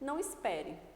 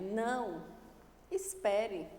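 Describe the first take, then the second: First: The two words run together without a pause. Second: There is a pause after the first word. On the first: The speaker is telling someone not to wait. "vamos tirar, vamos suprimir" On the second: The speaker is telling someone to wait. "esse não, essa pausa"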